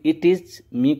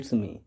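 First: The words 'it is' are said fully, separately. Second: The words 'it is' are contracted to 'it's'.

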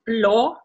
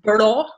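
First: The consonant after b is a clear l. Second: The consonant after b sounds like r. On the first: "instead of saying el" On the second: "we say er"

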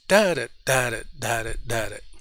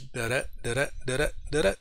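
First: Each pair goes strong then weak. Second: Each pair goes weak then strong. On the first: "the troche is" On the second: "The I am, which has that kind of a comma dash"

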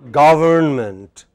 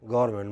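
First: The 'n' sound before '-ment' is pronounced. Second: The 'n' sound before '-ment' is dropped. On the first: The speaker calls it right. "How should it be pronounced?" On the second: The speaker calls it wrong. "But many people take this away. They say government"

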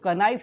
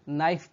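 First: The word starts with a k sound. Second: The word starts with an n sound. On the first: The speaker calls it wrong. "इसको कनाइफ नहीं पढ़ेंगे" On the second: The speaker calls it right. "नाइफ पढ़ेंगे, यहाँ पर के silent रहेगा"

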